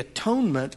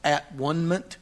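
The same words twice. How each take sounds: First: The word is said smoothly as one unit. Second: The word is split into three separate parts.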